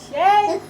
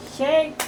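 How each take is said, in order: First: Loud high shout; shouted call. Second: Said in the usual way. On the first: Shown as a demonstration. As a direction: belt out the call. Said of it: "game call repeated louder". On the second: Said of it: "game call, then repeated louder".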